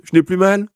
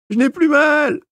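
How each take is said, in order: First: High, loud happy cry of relief; patient relieved after the treatment; relieved exclamation. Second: Very high, loud panicked yelp; frightened patient yelping at the dentist. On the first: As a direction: announce it, amazed and glad. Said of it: "s'écria-t-il". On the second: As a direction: squeal it to escape the chair. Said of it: "glapit l'infortuné". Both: A narrator's reading.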